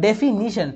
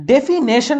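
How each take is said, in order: First: "ডেফিনিশন" with NI in the third syllable; correct pronunciation. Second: "ডেফিনেশন" with NAY in the third syllable; wrong pronunciation. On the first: Teacher correcting the mistake, "ডেফিনিশন" with an I sound before -shon. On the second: Teacher showing the mistake, "ডেফিনেশন" with an E sound before -shon. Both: Shown as a demonstration. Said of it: "ডেফিনেশন না কিন্তু".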